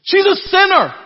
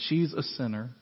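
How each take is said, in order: First: "She's a sinner" shouted high and loud, exclamation point; outraged emphatic line. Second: "She's a sinner" read softly, flat, no emphasis; flat throwaway read. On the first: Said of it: "It's emphatic". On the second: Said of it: "you don't read it". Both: Shown as a demonstration.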